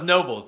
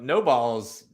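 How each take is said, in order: First: It sounds like the single word 'nobles'. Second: It sounds like the two words 'no balls'. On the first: The speaker calls it wrong. "I thought it was Nobles" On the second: The speaker calls it right. "as soon as you told me how to, to pronounce that"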